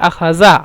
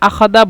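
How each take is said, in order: First: The middle consonant is a z sound. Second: The middle consonant is a d sound. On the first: This is the standard form. "আখাদা বলতে আখাজা" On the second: This is the Egyptian dialect form. "কিন্তু জালকে দাল, এই জন্য আখাদা"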